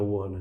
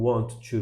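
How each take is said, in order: First: Want and to blend together into wanna. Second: Want and to are said as separate words.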